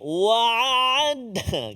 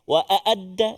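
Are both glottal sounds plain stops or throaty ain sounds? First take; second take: ain sounds; glottal stops. First: Both consonants are throaty ain sounds. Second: Both consonants are plain glottal stops. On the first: "dua-dua ain pula" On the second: "dua-dua hamzah"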